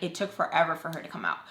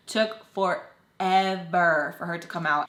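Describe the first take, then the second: First: Said in the usual way. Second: Slow, drawn-out "forever"; emphatic repeat. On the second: Real, not acted. Narrator stressing the endless wait, drawn-out "forever". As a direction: stretch "forever" syllable by syllable.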